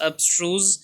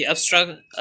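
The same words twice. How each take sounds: First: अब्स्ट्रूज said in full as ab-STROOZ with a rising end; corrected word. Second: अब्स्ट्रक- cut off mid-word, a slip toward abstract; false start. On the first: Teacher correcting her own slip in a word list, a careful corrected pronunciation. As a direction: land on the right form अब्स्ट्रूज carefully. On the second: Teacher reading a word list to students, a clipped mispronounced start. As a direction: begin अब्स्ट्रक- then break off abruptly. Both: Real, not acted.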